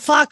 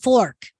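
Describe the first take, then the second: First: The word is said with no r sound. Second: The word is said with a strong r sound. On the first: "we don't say our r's" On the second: "they overpronounce their r's to me"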